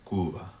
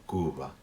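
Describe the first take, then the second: No difference in how they are said.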